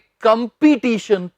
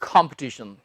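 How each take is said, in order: First: The second syllable is a long 'pee' sound. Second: The second syllable is a short 'p' sound. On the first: The speaker calls it wrong. "ना कि कंपटीशन, पी नहीं" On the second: The speaker calls it right. "प कहना बस"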